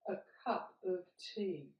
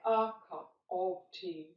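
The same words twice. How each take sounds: First: The small words are reduced to schwa. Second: The small words keep their full vowels. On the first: The speaker calls it right. "so they become uh, what we call a schwa" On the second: The speaker calls it wrong. "So we don't say"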